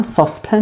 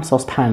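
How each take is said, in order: First: ساسپن ending in a weak "pun"; ساسپن with short, unstressed final syllable; reduced last vowel. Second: ساسپن ending in a full "pan"; American ساسپن with open "a" in last syllable; American full vowel. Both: Shown as a demonstration.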